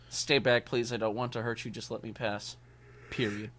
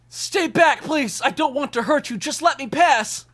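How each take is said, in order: First: It is read flatly, without much emotion. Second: It is read with a lot of emotion.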